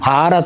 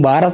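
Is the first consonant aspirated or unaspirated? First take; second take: aspirated; unaspirated. First: The first consonant is said with a breath puff. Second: The first consonant is said without a breath puff. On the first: The speaker calls it right. "భారత మాత అనాలి" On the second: The speaker calls it wrong. "నువ్వు భారత మాత అన్నావు"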